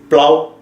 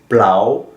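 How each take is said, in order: First: The syllable is said with a high tone. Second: The syllable is said without a high tone. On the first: "Et avec le B, c'est plau" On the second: "Ao, c'est plau"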